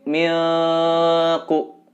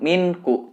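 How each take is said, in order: First: The n is muffled and hidden before the k. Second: The n is pronounced clearly before the k. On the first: The speaker calls it right. "ikhfa itu samar" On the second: The speaker calls it wrong. "Bukan minku"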